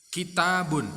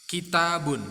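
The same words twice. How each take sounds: Both takes have the same delivery.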